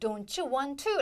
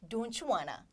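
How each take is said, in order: First: Each word is said fully and separately. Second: It is faster, with 'want to' reduced to 'wanna'. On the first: Not used in casual conversation. The speaker calls it wrong. "회화에서는 don't you want to 라고 발음하지 않고요" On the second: Used in casual conversation. The speaker calls it right. "조금 더 빠르고 쉽게 발음을 합니다"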